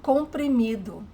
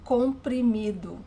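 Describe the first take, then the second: No difference in how they are said.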